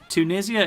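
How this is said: It is said with a British pronunciation. "the British way of pronouncing the name of the country"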